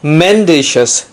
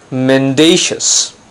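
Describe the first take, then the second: First: The stress is on the first syllable. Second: The stress is on the second syllable. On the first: The speaker calls it wrong. "It's not mendacious" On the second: The speaker calls it right. "the stress is on the second syllable"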